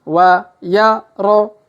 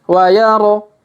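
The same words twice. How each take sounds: First: The letters are read slowly and separately. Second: The letters are read quickly together. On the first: "kita baca pelan-pelan" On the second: "Kalau dipercepat"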